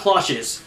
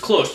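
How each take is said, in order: First: The final letter sound is pronounced aloud. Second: The final letter sound is left silent. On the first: The speaker calls it wrong. "not Cloches" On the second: The speaker calls it right. "it's Cloche, ... You don't pronounce, the last letter"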